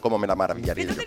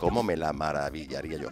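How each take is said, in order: First: It is said a little faster. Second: It is said at a normal pace.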